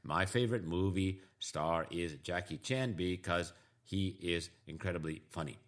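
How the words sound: Each word is said separately in a robotic way. The speaker calls it wrong. "There's no chunking going on. It's just singular words"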